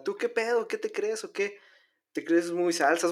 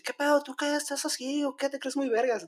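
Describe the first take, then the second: First: Only a hint of the northern Mexican accent, softer; a milder norteño tough-guy quote; toned-down norteño. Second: Higher, exaggerated northern Mexican tough-guy challenge; mock norteño accent. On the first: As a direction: redo the bully's challenge with the norteño accent pulled back. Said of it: "no, no tanto así". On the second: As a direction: ham up a norteño bully picking a fight. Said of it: "Tenía acento norteño".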